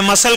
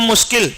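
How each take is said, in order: First: It is said as two syllables, mus-sul. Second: It is said as mush-kil, read letter by letter. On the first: The speaker calls it right. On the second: The speaker calls it wrong.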